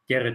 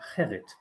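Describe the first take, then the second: First: The name is said in an anglicized way. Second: The name is said in the original Dutch way. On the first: "what Germans try to give their children as a name" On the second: "the proper pronunciation is Gerrit"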